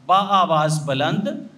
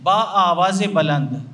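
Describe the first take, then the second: First: There is no linking vowel after aavaaz. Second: A linking e vowel follows aavaaz. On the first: The speaker calls it wrong. "कहा बा आवाज़ बुलंद नहीं" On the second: The speaker calls it right. "बा आवाज़े बुलंद यानी बुलंद आवाज़ के साथ"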